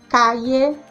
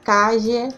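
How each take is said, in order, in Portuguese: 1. O ll é um som 'y'. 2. O ll é um som 'zh' sonoro. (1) "como se fosse o I" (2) "como se fosse o nosso J"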